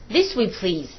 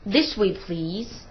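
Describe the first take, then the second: First: The voice falls at the end. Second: The voice rises at the end. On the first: It is a less polite request. "这是降调" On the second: It is a more polite request. "这是升调"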